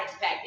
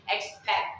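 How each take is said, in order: First: EXPECT with a released final T; final T sounded. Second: EXPECT said like "expeck"; final T dropped. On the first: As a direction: say EXPECT, finishing on a clear T. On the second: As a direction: say EXPECT, stopping on the K. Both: Shown as a demonstration. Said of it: "it's not expect".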